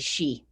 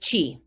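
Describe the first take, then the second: First: The name begins with a 'sh' sound. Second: The name begins with a 'ch' sound. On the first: The speaker calls it right. "the correct pronunciation is actually she" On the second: The speaker calls it wrong. "I was certain it was Chi"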